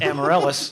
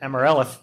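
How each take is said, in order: First: The s sound is said clearly. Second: The s sound is lisped like th.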